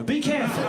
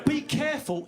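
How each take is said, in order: First: Louder, higher insistence; emphatic warning. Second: Said in the usual way. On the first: Real, not acted. Comedian warns single men in the room, loud emphatic warning. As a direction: drive the warning home, raised voice. Repeats warning more forcefully.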